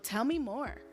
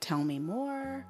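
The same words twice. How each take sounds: First: It is said in a pushy, demanding way. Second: It is said in a gentle, calm way.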